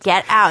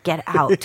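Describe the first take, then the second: First: It is said loudly and angrily. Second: It is said quietly.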